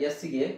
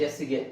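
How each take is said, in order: No difference in how they are said.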